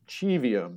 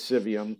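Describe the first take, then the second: First: The name is pronounced in a Latin way. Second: The name is pronounced in an English way. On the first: It follows the original Latin. "the proper Latin pronunciation" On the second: It links the name to English words like civic. "kind of a anglicization"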